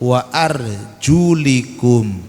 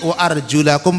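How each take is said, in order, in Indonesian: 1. Vokal setelah arjul adalah i pendek. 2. Vokal setelah arjul adalah a pendek. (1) "karena kaki ngikut kepala dengan kasroh" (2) "pakai fathah"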